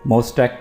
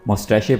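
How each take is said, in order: First: The word ends with a k sound. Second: The word ends with a shay sound. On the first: "कुछ लोग इसको मोस्टैक पढ़ते हैं" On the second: "कुछ लोग जो है वो इसको मोस्टैशे पढ़ते हैं"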